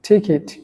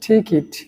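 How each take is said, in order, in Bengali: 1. দ্বিতীয় সিলেবলে 'i' স্বরধ্বনি আছে, 'kit' এর মতো। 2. দ্বিতীয় সিলেবলে 'i' স্বরধ্বনি আছে, 'kit' এর মতো।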